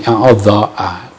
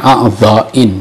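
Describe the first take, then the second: First: The word ends with an '-a' sound. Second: The word ends with an '-in' sound. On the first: The speaker calls it wrong. "dibaca fi a'dha'a, keliru" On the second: The speaker calls it right. "Dibacanya a'dha'in ya"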